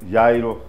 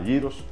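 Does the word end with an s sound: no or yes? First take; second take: no; yes. First: The word ends without a final s sound. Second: The word ends with a final s sound. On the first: The speaker calls it wrong. "que no se llama gyro" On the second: The speaker calls it right. "sino se llama gyros"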